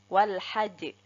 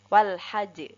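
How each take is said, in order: The two takes are said the same way.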